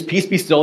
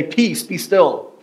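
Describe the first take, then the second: First: Said in the usual way. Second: Slow, measured calm command. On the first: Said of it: "they use". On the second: Shown as a demonstration. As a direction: let each word settle slowly. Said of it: "Or some translations will say".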